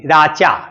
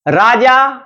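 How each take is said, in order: First: The middle consonant is a voiceless ch sound. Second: The middle consonant is a voiced j sound. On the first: This is how the Paishachi language says it. "च में बदल देगी" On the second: This is the usual form of the word. "राजा में जो ज है वो तीसरी ध्वनि है"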